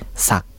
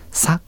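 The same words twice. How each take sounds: First: The word is said with a low tone. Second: The word is said with a high tone. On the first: "さと低い成長で発音してもいいです" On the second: "さと高く発音してもいいし"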